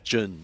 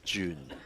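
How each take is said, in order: First: It does not sound like the month June. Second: It sounds just like the month June. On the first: The speaker calls it right. "it's Jun, not June" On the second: The speaker calls it wrong. "June is more like the sixth month of the calendar year"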